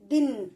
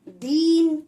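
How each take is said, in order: First: The vowel is said short and quick. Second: The vowel is drawn out long. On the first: The speaker calls it right. "छोटी ई की मात्रा को थोड़ा सा जल्दी से पढ़ देना है" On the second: The speaker calls it wrong. "हमें ऐसे लंबा खींच के नहीं पढ़ना है"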